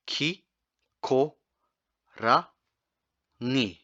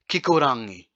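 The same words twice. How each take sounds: First: Kikorangi stretched out very slowly syllable by syllable; very slow demo. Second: Said in the usual way. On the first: Shown as a demonstration. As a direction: draw out every sound of Kikorangi slowly. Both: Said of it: "next one's a little bit tricky".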